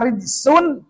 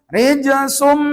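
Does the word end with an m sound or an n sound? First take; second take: n sound; m sound. First: The n is pronounced plainly without merging. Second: The n merges into a long nasal m. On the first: The speaker calls it wrong. "maka membacanya tidak memakai hukum" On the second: The speaker calls it right. "dua harokat, panjangkan"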